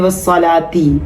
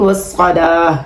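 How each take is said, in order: First: The word ends with a 'ti' sound. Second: The word ends with an 'h' sound. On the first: The reading continues into the next word. "अब अगर यहाँ वक्फ हो ना होता तो हम पढ़ते वस्सलाती" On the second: The reading stops at this word. "यहाँ रुक सकते हैं, बिस्सब्रि वस्सलाह कर सकते हैं"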